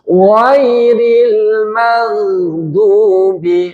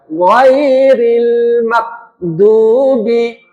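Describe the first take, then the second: First: The consonants are articulated soft and gentle. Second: The consonants are articulated hard and stiff. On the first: The speaker calls it right. "lebih lunak" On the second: The speaker calls it wrong. "menjadi kaku"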